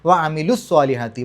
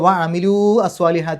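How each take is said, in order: First: The words run together without the long vowel. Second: An extra vowel separates the two words. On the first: The speaker calls it right. "വ അമിലു എന്നേ പറയുള്ളൂ" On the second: The speaker calls it wrong. "എന്നല്ല പറയാം"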